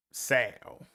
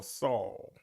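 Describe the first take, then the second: First: Saul said like "Sal"; regional pronunciation. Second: Saul said like "Sawl"; standard pronunciation. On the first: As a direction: give Saul the front "a" of "pal". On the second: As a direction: give Saul the rounded "aw" of "law". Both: Shown as a demonstration. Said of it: "however you pronounce it".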